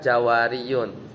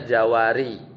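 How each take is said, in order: First: The word ends with an added -yun syllable. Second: The word ends on a plain -i sound. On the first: The case ending is fully pronounced. The speaker calls it wrong. "nggak baca Jawariyun" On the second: The case ending is dropped as too heavy. The speaker calls it right. "tapi dia baca Jawari"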